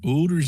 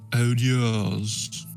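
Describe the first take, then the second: First: It is said in a Canadian accent. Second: It is said in a British accent.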